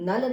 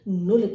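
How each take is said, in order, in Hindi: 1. स्वर 'uh' जैसा सुनाई देता है। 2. स्वर 'oo' जैसा सुनाई देता है। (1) "इसे हम नल नहीं कहेंगे" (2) "नुल कहलाएगा"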